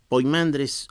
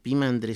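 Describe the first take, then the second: First: The first syllable is pronounced "poi". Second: The first syllable is pronounced "pi". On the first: The speaker calls it wrong. "está escrito Poimandres" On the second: The speaker calls it right. "es más correcto, decir Pimandres"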